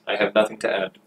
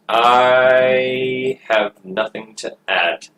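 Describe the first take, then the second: First: Said in the usual way. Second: Slow, lingering start on "I"; drawn-out delivery. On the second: Acted. Player stalling on having nothing to add, drawn out. Repeats line, first drawn out.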